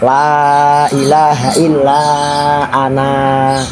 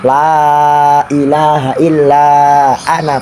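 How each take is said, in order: First: The final vowel of ana is drawn out long. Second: The final vowel of ana is kept short. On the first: The reading stops at this word. "nek diwaca waqaf" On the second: The reading continues into the next word. "Nek diwaca wasol"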